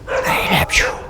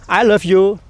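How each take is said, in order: First: It is said softly and quietly. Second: It is said loudly and clearly.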